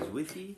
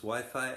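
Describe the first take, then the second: First: It is said with a French accent. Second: It is said with an English accent.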